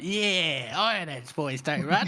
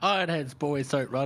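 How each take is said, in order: First: It is said in a higher pitch. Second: It is said in a lower, normal pitch.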